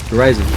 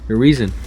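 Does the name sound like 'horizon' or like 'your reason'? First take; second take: horizon; your reason. First: The name sounds like the word 'horizon'. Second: The name sounds like the words 'your reason'. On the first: "just to make the name a little bit more badass" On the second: "that's how you actually pronounce him, your reason"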